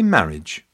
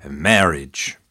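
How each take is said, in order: First: English pronunciation. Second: American pronunciation. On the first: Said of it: "In England, you say". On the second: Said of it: "In America, we say". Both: Shown as a demonstration.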